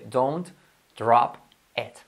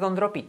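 First: The vowel in 'it' sounds like an E. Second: The vowel in 'it' sounds like an I. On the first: The speaker calls it right. "se dice don't drop it ... E" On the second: The speaker calls it wrong. "¿Pero se dice don't drop it? No"

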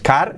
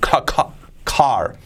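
First: The k sound is plain, without a burst of breath. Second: The k sound has a breathy, cough-like burst. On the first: The speaker calls it wrong. "no es car" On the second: The speaker calls it right. "es ca, como tosiendo"

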